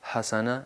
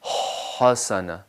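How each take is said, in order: First: The h sound is light and plain. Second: The h sound is drawn out and stressed. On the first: The speaker calls it wrong. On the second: The speaker calls it right.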